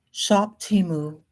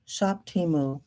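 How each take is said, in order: First: Shop drawn out slowly like an ad; slow slogan. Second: Said in the usual way. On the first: Shown as a demonstration. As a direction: say "Shop Temu" slowly, ad style. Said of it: "ad-like slogan, slow". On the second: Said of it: "repeated plainly".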